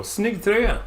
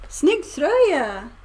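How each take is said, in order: First: Snygg tröja said quick and casual; casual Swedish. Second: Snygg tröja said slowly and carefully; careful learner. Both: Shown as a demonstration. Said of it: "Or you just go".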